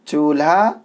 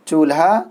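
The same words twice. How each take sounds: Both takes have the same delivery.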